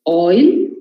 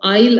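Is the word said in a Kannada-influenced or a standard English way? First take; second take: standard; Kannada-influenced. First: Oil is said with the standard oi sound. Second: Oil is said like aisle, Kannada-influenced.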